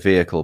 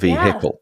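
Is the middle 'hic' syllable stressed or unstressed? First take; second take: unstressed; stressed. First: The middle 'hic' syllable is not emphasized. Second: The middle 'hic' syllable is clearly emphasized. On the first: "Notice how I say vehicle" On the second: "You don't have to emphasize the hic"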